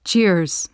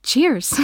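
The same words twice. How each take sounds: First: Lightly twanged "Cheers", almost two syllables; twanging accent. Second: Put-on higher-pitched "Cheers" in her twanging accent; reply "Cheers" high, nearly in two syllables; almost two-syllable accent. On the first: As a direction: say "Cheers" with his twang, nearly splitting it in two. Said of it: "the twang of his accent making it almost two syllables". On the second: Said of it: "reply with your almost two syllables". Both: A narrator's reading.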